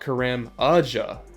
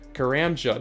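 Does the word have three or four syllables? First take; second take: four; three. First: The word has four syllables, a vowel before j. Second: The word has three syllables, no vowel before j. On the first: The speaker calls it wrong. "I put an extra syllable in there" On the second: The speaker calls it right. "It's Karamja"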